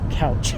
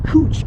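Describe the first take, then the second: First: The vowel sounds like the one in cow. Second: The vowel sounds like the one in too. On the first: The speaker calls it wrong. "it's not pronounced couch" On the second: The speaker calls it right. "It's cooch, I believe"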